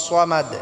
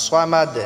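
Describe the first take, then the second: Both takes have the same delivery.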